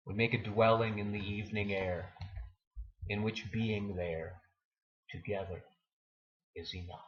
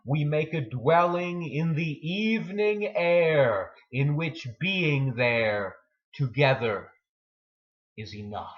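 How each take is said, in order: First: Fading repeat. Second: Full-voiced recital of the closing lines; poem reading. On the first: Acted. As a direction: let the closing lines die away gently. Closing lines repeated, fading. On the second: Poem's closing lines, first take.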